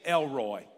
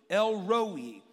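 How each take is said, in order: First: It is said in a West Virginia accent. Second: It is said the standard way, two distinct parts.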